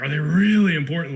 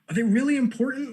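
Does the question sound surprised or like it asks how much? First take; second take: asks how much; surprised. First: It sounds like asking about the degree of importance. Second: It sounds surprised, like news to the speaker. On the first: The asker wants to know if they matter a lot. "Like, are they extremely important?" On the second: The asker did not know they mattered at all. "Like, wow, I didn't know that"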